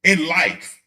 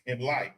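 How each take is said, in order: First: In life punched louder; stressed. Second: Said in the usual way. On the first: Shown as a demonstration. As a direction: lean on "in life".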